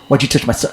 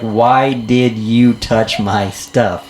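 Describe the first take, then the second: First: The words are run together as one word. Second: Each word is said separately and distinctly.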